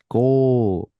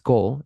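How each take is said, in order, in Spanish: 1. La vocal se alarga. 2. La vocal se mantiene corta. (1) "Lo alargas" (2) "es otra palabra"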